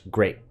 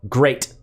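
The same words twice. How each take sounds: First: The final T is cut off without release. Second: The final T is released hard and clearly. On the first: "versus great" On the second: "you nail a T"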